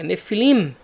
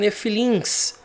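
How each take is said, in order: First: The word ends with an m sound. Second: The word ends with an s sound. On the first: The speaker calls it right. "é Nefilim, com M, com men no final" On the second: The speaker calls it wrong. "Não são Nefilims"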